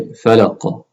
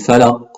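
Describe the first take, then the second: First: The final q is released with a slight echo. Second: The final q stops flat without an echo. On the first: The speaker calls it right. "The qaf needs to echo a little bit" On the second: The speaker calls it wrong. "Instead of falaq"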